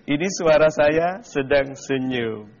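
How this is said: The voice sounds like it is smiling.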